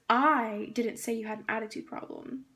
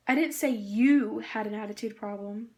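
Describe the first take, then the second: First: "I" punched at the start, rest plain; emphasis on "I" to change the meaning; stress on I. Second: "didn't" hit louder, rising; emphasis shifted to "didn't"; stress on didn't. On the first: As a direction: lean hard on the word "I". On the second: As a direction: push the word "didn't". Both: Shown as a demonstration. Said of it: "When you emphasize specific words".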